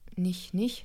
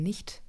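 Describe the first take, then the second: First: The final t sound is dropped. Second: The final t sound is clearly pronounced. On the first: The speaker calls it wrong. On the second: The speaker calls it right. "sondern nicht"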